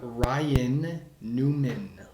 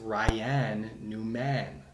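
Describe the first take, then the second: First: The last syllable has a weak schwa vowel. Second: The last syllable has a full, clear vowel. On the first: The speaker calls it right. "the schwa sound" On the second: The speaker calls it wrong. "Why isn't it"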